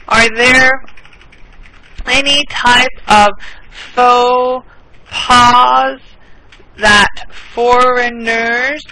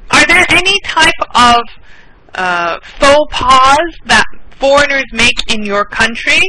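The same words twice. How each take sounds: First: Each word spaced out, very slow; slow it right down for learners; teacher's extra slow repeat; slow and clear. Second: Said in the usual way. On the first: Shown as a demonstration. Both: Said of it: "(repeats the question slowly)".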